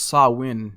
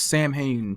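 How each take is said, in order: First: It is pronounced the traditional Celtic way. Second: It is pronounced as American English reads it. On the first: The speaker calls it right. "it's a Celtic festival, and it's pronounced Samhain" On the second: The speaker calls it wrong. "if we say this in American English"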